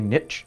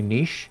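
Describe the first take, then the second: First: The word is said in a plain-sounding way. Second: The word is said in a refined-sounding way. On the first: The speaker wants to sound ordinary. "If you want to sound ordinary, say niche" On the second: The speaker wants to sound really smart. "if you want to sound really smart, say niche"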